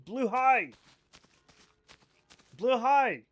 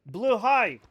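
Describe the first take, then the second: First: Blue high said louder and higher, high stressed; emphatic repeated Blue high; louder insistence. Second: Blue high, louder and higher, stressing high; forceful Blue high, high punched; insistent pronunciation. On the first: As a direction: hammer it home. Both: Shown as a demonstration. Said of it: "That's what I'm saying".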